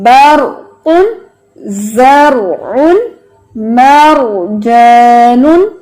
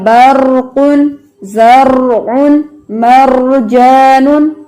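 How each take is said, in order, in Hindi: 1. r को एक बार कंपन के साथ ट्रिल किया जाता है। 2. r को कई बार कंपन के साथ ट्रिल किया जाता है। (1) "वो एक दफा वाइब्रेशन की है" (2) "वाइब्रेशन है वो ज्यादा आ रही है ... ये नहीं पढ़ना"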